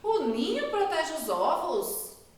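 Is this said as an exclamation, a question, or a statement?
question. It is said as a question, rising. It asks whether this is true. "Também deu uma pergunta"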